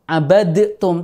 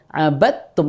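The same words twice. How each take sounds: First: The d is bounced separately before the t. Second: The d merges straight into a doubled t. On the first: The speaker calls it wrong. "tidak membaca abadtum" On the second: The speaker calls it right. "langsung aja ke ta tasdid"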